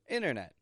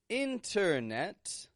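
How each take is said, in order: First: Both T sounds are dropped or cut short. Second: Both T sounds are clearly pronounced. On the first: The speaker calls it right. "a quick and short inner. Internet. With a vanishing T in the middle and a stop T on the ending" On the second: The speaker calls it wrong. "I'm not saying internet"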